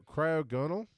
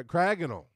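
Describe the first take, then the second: First: Cryogonal as cry-oh-GON-al, rising like a question; unsure cryogonal, cry-oh-GON-al; tentative pronunciation. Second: Cryogonal as cry-AG-un-ul, falling firmly; corrected pronunciation. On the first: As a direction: try cryogonal with a long "oh" and stressed GON. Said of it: "we were trying to pronounce". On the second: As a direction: say cryogonal with a short stressed "ag". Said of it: "second syllable is the emphasis". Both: Real, not acted.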